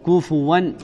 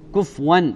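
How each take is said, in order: First: Both k and f carry u, ending -fuwan. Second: The f has no vowel, ending -fwan. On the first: "كفوا بضم الكاف والفاء مع التنوين" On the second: "بإسكان الفاء"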